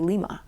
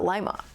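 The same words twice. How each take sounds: First: It is said like the Peruvian capital's name. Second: It is said like the usual bean name. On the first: It refers to the capital of Peru. The speaker calls it right. "the capital of Peru, I would say Lima" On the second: It refers to the bean. The speaker calls it wrong. "not Lima"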